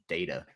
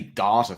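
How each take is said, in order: First: It is said with an American pronunciation. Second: It is said with a non-American pronunciation. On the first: "I'm always like data" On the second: "we would say data"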